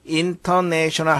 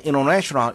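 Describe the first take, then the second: First: The t after the n is clearly pronounced. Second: The t after the n is dropped. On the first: The speaker calls it wrong. "하지 않고" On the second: The speaker calls it right. "이렇게 우리가 발음하죠"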